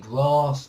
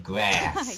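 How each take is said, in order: First: It is said with a British vowel. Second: It is said with an American vowel. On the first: "in England we say" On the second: "in America they would say"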